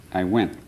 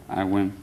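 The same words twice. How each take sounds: The two takes are said the same way.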